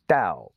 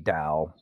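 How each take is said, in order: First: The pitch falls sharply from high to low. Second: The pitch stays plain without a sharp fall.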